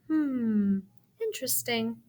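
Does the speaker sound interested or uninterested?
interested. It sounds plain, as if genuinely interested.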